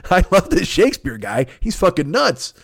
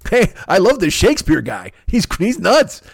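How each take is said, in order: First: Higher gleeful movie tough guy; a lighter Tom Sizemore take. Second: Higher, louder wild-eyed movie tough guy; a hint of Tom Sizemore. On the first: Retold or imitated. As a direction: grin through it like Sizemore. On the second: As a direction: rave like a manic cop. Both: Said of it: "Fucking Tom Sizemore in True Romance".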